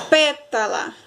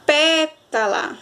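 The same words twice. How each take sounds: First: Said in the usual way. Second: "pétala" called slowly with a long, raised PÉ; drawn-out PÉÉ-ta-la; stress on PÉ. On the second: Shown as a demonstration. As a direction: stretch and push the first syllable of "pétala". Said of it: "Pé saiu mais forte".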